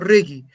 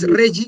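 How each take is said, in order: First: The first part is pronounced the German way. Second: The first part is pronounced the French way. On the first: The speaker calls it right. "Esta parte sí alemana y la otra parte bien francesa" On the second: The speaker calls it wrong. "pero no es Regi"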